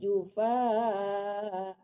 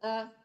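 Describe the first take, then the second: First: The final vowel is held for two beats. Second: The final vowel is cut off short. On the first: The speaker calls it right. "Dua harkat panjangnya" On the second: The speaker calls it wrong. "jangan ah kayak gitu aja ya"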